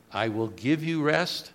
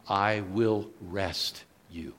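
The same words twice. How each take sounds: First: Said in the usual way. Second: I will rest you, slow and deliberate; slow, stressed reading. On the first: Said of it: "I like what it says in the original". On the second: Shown as a demonstration. Preacher showing the Greek wording, slow and weighty. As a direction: stretch out "I will rest you" so "rest" lands as a verb. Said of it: "It literally says in the Greek".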